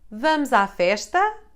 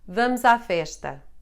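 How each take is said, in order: First: It is said as a question. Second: It is said as a plain statement.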